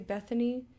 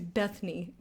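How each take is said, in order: First: Every syllable of the name is pronounced. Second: One syllable of the name is left out. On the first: The speaker calls it right. "they won't say Bethany" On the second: The speaker calls it wrong. "take an entire syllable out of my name"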